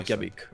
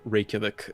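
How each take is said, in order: First: The name is said with Icelandic pronunciation. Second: The name is said with foreign pronunciation. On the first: This is how locals say it. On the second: This is how foreigners say it.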